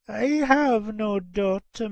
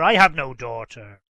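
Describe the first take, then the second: First: High, slow denial; lightly voiced old lady, drawn out and higher; disbelieving mother. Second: Loud, low, falling denial from an angry father. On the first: Old lady refusing to know the girl, disbelieving. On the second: Old gentleman rejecting the girl at his door, angrily. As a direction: disown the girl firmly and angrily. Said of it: "said the old gentleman angrily". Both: A narrator's reading.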